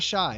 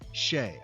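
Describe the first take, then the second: First: The name sounds like the word 'shy'. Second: The name does not sound like 'shy'. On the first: The speaker calls it wrong. "It's not Shy. It's not like, oh, he's shy" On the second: The speaker calls it right. "it's Shai"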